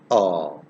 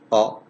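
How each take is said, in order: First: The vowel is held for a longer time. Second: The vowel is held only briefly. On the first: "o long vowel" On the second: "o short vowel"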